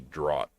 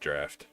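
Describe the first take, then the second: First: It is said with no f sound. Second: It is said with an f sound. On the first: This is how most Americans say it. "most Americans say draught" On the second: This is how some Europeans say it. "some E U people say draft"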